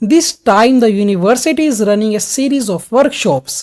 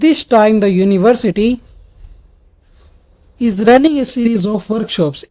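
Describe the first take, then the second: First: The sentence flows without a long pause. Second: A long pause breaks the sentence midway. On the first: The speaker calls it right. "Words पे थोड़ा सा stress दिया" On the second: The speaker calls it wrong. "इतना ज्यादा lengthy पोज हम कभी भी students नहीं रख सकते"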